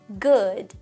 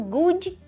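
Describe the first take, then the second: First: It ends cleanly on the final consonant. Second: It ends with an added short 'i' vowel. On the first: The speaker calls it right. "eu estou dizendo assim, ó" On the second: The speaker calls it wrong. "muito menos colocando good com esse izinho no final"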